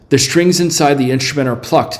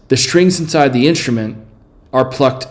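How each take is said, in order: First: There is no pause after 'instrument'. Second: There is a long pause after 'instrument'. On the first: The speaker calls it right. "it's just nothing" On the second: The speaker calls it wrong. "Is it a long or logical pause? Let me say it with C"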